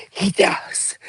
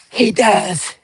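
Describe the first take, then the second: First: Hushed gossip; whispered. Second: Said in the usual way. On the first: Shown as a demonstration. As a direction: say it under your breath. Whispers, then repeats aloud.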